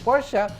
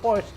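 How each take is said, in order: First: It is pronounced the European way. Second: It is pronounced the North American way. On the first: This is how people in Europe say it. "kung nasa bandang Europea po kayo" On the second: This is how people in North America say it. "nasa U S naman kayo, Porsche ang tawag po nila or sa North America"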